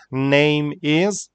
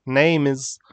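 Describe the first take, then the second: First: 'Name is' as two separate words, rising on 'is'; 'Name is' unlinked, lifted at the end; careful spelled-out form. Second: 'name is' run together as one word, falling; 'name is' joined up, stress on 'name'; natural linked pronunciation. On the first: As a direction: say 'Name is' word by word, like a list item left open. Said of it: "pronunciation help, how we spell it". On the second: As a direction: link 'name' straight into 'is'. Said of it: "how we say it". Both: Shown as a demonstration.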